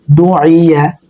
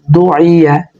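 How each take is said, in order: Both takes have the same delivery.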